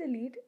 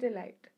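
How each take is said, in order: First: "Elite" ending like "leet"; "ee-leet" pronunciation. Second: "Elite" ending like "light"; "uh-light" pronunciation. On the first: Vlogger unsure of a show's name, "Elite" as "ee-leet". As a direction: say "Elite" to rhyme with sheet. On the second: Vlogger unsure of a show's name, "Elite" as "uh-light". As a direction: say "Elite" to rhyme with kite. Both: Shown as a demonstration. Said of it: "Is it Elite or is it Elite".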